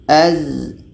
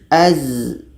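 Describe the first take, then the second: The two takes are said the same way.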